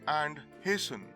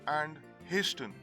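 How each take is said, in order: First: The T sound is silent. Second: The T sound is clearly pronounced. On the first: "the T is silent" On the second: "prominently pronouncing the T"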